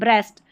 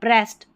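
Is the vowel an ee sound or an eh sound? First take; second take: eh; eh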